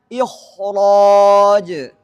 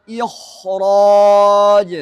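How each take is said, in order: Both takes have the same delivery.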